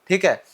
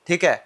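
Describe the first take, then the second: No difference in how they are said.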